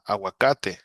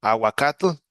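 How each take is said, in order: First: Aguacate in Spanish, a-wa-KA-te with a final e. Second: Aguacate said as Nahuatl awakatl, higher and louder; Nahuatl original. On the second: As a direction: Aguacate ending in a tl sound, not te. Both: Shown as a demonstration. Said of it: "that's, uh, aguacate".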